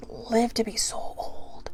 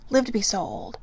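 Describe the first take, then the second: First: Breathy whispered aside; soft whisper of wonder. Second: Said in the usual way. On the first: Real, not acted. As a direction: drop to a hushed whisper. Whispered aside on tortoise age.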